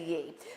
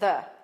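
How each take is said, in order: First: The word begins with a y sound. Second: The word begins with a th sound. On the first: The speaker calls it wrong. "don't say ye" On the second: The speaker calls it right. "Just pronounce it the"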